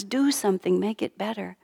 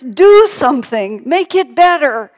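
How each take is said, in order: First: Said in the usual way. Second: Loud, high, drawn-out mock wail; fussing baby's demand. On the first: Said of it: "that's just how we feel sometimes". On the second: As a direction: cry out like a baby demanding help. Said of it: "he was just fussing and crying".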